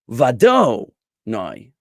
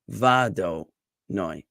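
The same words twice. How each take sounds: First: The middle syllable do is stressed. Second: The middle syllable do is unstressed. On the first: The speaker calls it wrong. "So it won't be vado noi" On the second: The speaker calls it right. "the emphasis is going to be on noi, but it's also going to be on the first syllable"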